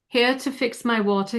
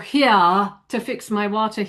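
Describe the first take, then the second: First: The vowel in 'here' is short and clipped. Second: The vowel in 'here' is held out long. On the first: The speaker calls it right. "It would shorten" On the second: The speaker calls it wrong. "you're not going to go"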